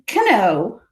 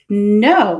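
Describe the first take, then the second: First: A K sound is heard before the N. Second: The word begins directly with the N sound. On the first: The speaker calls it wrong. "It's not going to be cano" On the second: The speaker calls it right. "It's no"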